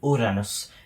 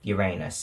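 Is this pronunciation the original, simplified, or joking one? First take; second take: original; joking. First: It is said in the original naming pronunciation. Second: It is said in a childish, joking pronunciation. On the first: This is the name as first given. "gave it the name Uranus" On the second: This form is used as a rude joke. "or Uranus if you're a twelve-year-old"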